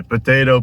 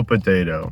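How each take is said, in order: First: POTATO pitched up; first of contrasting pair. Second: POTATO pitched low; second of contrasting pair. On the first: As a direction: say POTATO raised, as the first option. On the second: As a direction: drop POTATO lower, as the second option. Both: Shown as a demonstration. Potato, potato saying, two takes.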